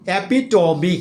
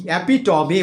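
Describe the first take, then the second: Both takes have the same delivery.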